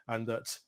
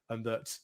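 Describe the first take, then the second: No difference in how they are said.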